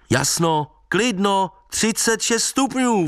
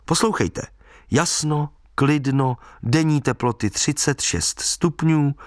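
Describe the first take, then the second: First: High, stretched-out call; high-pitched calling, no real shout; calling after someone. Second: Measured newspaper read-out, item by item; evenly spaced forecast announcement. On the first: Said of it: "volal jsem za ním". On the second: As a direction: read it out deliberately, pausing between items. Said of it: "otevřel noviny". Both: A narrator's reading.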